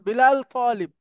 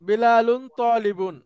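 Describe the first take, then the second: First: Both words drop their -un endings. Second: Both words keep their full -un endings. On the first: This is how it is said in natural speech. "তখন আমরা কিভাবে স্বাভাবিকভাবে বলবো?" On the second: This is the form read while learning. "যখন আমরা আরবিতে বলবো তখন বল তখন বিলালুন তলিবুন এভাবে বলবো না।"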